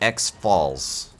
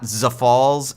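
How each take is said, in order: First: It is said as letter X plus falls. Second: It is not said as letter X plus falls. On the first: The speaker calls it right. "So X, like the platform ... and Falls, like the Niagara Falls" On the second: The speaker calls it wrong. "it is not Zafalls"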